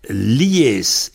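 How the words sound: The word is shortened, the first syllable dropped. This is how one regional dialect says it. "en vente, en général, ça devient lies"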